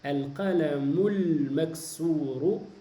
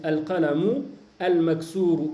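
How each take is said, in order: First: The words run together with no stop between. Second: The words are separated by a stop between them. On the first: The reader is fluent and saves time. "tu vas faire la liaison entre al-qalamu et al-maksour" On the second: The reader shows the article of the second word clearly. "tu as le droit de t'arrêter"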